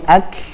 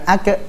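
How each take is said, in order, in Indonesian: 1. K di akhir dilepas dengan nafas yang mengalir. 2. K di akhir dilepas dengan gema yang memantul. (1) "tapi ak, nafas yang mengalir" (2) "Jangan dikol-kolahkan ya. Bukan ak"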